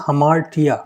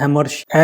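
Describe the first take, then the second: First: Hamartia said as ha-MAR-tia, stress on the second syllable; correct pronunciation. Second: The common wrong way, hamartia run together as hemarsha; wrong pronunciation. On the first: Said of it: "The pronunciation of this word is hamartia rather than". (hamartia को ह-मार-टिया बोलें, ज़ोर मार पर) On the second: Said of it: "rather than". (hamartia को गलत तरीके से हेमर्शा बोलें) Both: Shown as a demonstration.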